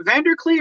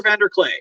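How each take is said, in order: First: "Vanderklee" with last syllable rhyming with "see"; name ending in klee. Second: "Vanderclay" with last syllable rhyming with "day"; name ending in clay. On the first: Host checking a guest's surname, "Vanderklee" ending in ee. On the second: Host offering the other surname option, "Vanderclay" ending in ay. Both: Shown as a demonstration. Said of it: "I've been mispronouncing it".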